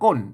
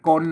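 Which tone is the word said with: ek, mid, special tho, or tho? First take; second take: tho; mid. First: The word carries the ordinary tho tone. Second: The word carries the mid tone. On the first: "ก้นเสียงโทปกตินะครับ" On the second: "เสียงสามัญอ่ะก้นอ่ะ"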